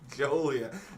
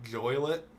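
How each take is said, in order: First: The first syllable sounds like 'jo', not 'joy'. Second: The first syllable sounds like 'joy', rhyming with toilet. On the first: The speaker calls it right. "So it's not Joy" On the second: The speaker calls it wrong. "Is it like toilet but with a J?"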